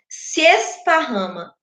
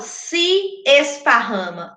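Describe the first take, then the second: First: The two meeting vowels merge into one syllable. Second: The two meeting vowels are said separately. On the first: The speaker calls it right. "eu falo se esparrama. Eu junto isso aqui" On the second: The speaker calls it wrong. "eu não falo se esparrama"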